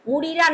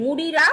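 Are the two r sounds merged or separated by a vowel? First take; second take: separated; separated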